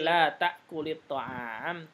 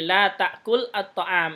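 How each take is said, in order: First: The words run together with a linking i. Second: The words are said separately, unlinked. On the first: "kalau disambungkan menjadi" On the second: "itu asalnya"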